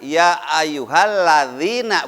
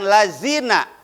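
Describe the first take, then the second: First: The middle consonant is a soft 'th' sound. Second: The middle consonant is a plain 'z' sound. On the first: The speaker calls it right. "yang betul adalah" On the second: The speaker calls it wrong. "bukan lazina. Karena kalau lazina berarti hurufnya zai"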